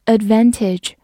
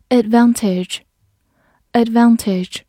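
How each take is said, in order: First: Advantage said the American way, with the a of "cat"; American pronunciation. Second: Said in the usual way. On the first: Shown as a demonstration. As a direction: say advantage with a General American short a. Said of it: "或者美式读音". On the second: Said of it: "或者美式读音advantage也是可以的".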